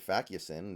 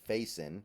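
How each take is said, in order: First: The surname is said with three syllables. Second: The surname is said with two syllables. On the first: The speaker calls it wrong. "never heard that name pronounced before" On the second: The speaker calls it right. "much different than I was thinking"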